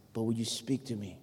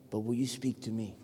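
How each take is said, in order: Both takes have the same delivery.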